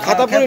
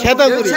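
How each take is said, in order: First: The first vowel sounds like 'a'. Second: The first vowel sounds like 'e'. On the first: The speaker calls it wrong. "খাতাপুরি নাকি" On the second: The speaker calls it right. "উচ্চারণ হবে"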